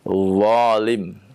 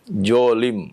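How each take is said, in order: First: It begins with an emphatic z-like sound. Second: It begins with a j sound. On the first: The speaker calls it right. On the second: The speaker calls it wrong.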